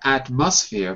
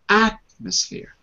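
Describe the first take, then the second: First: The stress is not on the first syllable. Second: The stress is on the first syllable. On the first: The speaker calls it wrong. "not atmosphere" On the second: The speaker calls it right. "but atmosphere ... First syllable"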